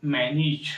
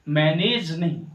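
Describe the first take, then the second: First: मैनेज with a short i, man-ij; मैनेज the English way, man-ij; correct manage. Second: मैनेज with a full e, man-ej; the wrong way, मैनेज as man-ej; wrong manage. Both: Shown as a demonstration. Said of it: "मैनेज को मैनेज पढ़ेंगे".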